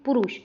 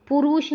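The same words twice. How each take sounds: First: पुरुष with short ru, quick and falling; correct short vowel. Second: पुरुष as पुरूष, with long roo; mistaken long vowel. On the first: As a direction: say पुरुष as a brief pu-rush. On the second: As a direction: stretch पुरुष to pu-ROOSH. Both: Shown as a demonstration. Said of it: "पुरुष नहीं".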